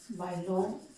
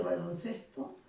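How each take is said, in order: First: "Baloncesto" broken into balon, pause, cesto; "Baloncesto" drawn apart for teaching; word split in parts. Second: Said in the usual way. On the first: Shown as a demonstration. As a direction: say "Baloncesto" in two separate pieces. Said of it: "va a tener la sílaba tónica". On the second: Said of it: "el primer término pierde la tilde".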